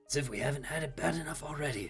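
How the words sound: It is said in a put-on character voice.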